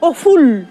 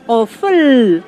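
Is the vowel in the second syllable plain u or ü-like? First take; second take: plain u; ü-like. First: The second vowel is a plain rounded u. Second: The second vowel is a central ü-like vowel. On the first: The speaker calls it wrong. "no es Oful" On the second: The speaker calls it right. "es Oful, Oful. Y ahí es donde cabe que ponemos o la V, V o la U con cremilla"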